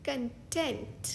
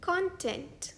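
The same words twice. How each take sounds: First: कंटेंट with the stress on the second syllable; कंटेंट, stress at the end; con-TENT. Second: कंटेंट with the stress on the first syllable; कंटेंट, stress up front; CON-tent. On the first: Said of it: "इस शब्द का दूसरा pronunciation है". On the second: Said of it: "दूसरा शब्द है ये". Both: Shown as a demonstration.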